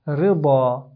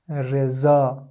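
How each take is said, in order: First: The middle consonant is the heavy dad sound. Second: The middle consonant is the light za sound. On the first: The speaker calls it right. "So we should say riba" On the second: The speaker calls it wrong. "many people wrongly pronounce them as"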